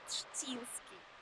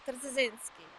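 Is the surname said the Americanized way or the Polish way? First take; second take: Polish; Americanized. First: The name is said with Polish sounds. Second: The name is said with simplified Americanized sounds. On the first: This is the original pronunciation of the name. "his name was in Polish" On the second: This is how the name's owner says it himself. "the way he was saying it, it was like"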